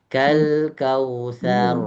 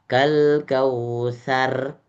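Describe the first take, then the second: First: The final r is thick and rounded. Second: The final r is thin and trilled. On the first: The speaker calls it right. "Jadi dibulatkan, roknya jadi bulat" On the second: The speaker calls it wrong. "bukan kal kausar, salah"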